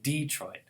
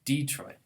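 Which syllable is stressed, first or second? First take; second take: first; first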